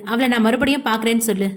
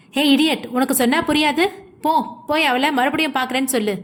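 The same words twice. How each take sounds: First: Said in the usual way. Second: Understated angry yell, quickening at the end. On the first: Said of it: "என்று சொல்ல". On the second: A narrator's reading. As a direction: snap impatiently at a subordinate, without full volume. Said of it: "என்று யது கத்த". (லேசான கோபக் கத்தல்)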